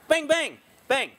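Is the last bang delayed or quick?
delayed. A short pause comes before the last bang. The shooter settled before the final shot. The speaker calls it right. "there's a little bit of a pause between it"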